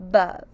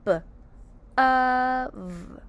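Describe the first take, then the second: First: Said in the usual way. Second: Short B, then "Of" held long as uhv; sounded out. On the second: Shown as a demonstration. Teacher says let's sound out bov, sounded out. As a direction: separate the B from a drawn-out "Of". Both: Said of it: "Let's sound out bov".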